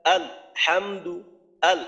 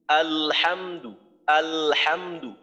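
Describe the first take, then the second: First: আলহামদু split with a stop after আল, slow; wrong broken recitation. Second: আলহামদু drawn out slowly with the lam kept humming; slow recitation demo. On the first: Teacher demonstrates the mistake to students, broken slow. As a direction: pause after আল before হাম in আলহামদু. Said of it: "ভুল হয়ে যাবে". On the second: Teacher recites slowly for students, lam held voiced. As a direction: stretch আলহামদু, let the lam ring into হা. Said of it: "এই যে লামের আওয়াজটাকে আমি চালু রাখতেছি". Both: Shown as a demonstration.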